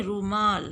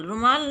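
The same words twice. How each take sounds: First: रूमाल with a long "oo"; correct pronunciation. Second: रुमाल with a short "u"; wrong pronunciation. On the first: Teacher correcting for pupils, रूमाल with long "oo". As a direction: lengthen the first vowel of रूमाल. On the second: Teacher showing pupils the mistake, रुमाल with short "u". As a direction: say रुमाल loud, first vowel short. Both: Shown as a demonstration. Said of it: "रुमाल नहीं".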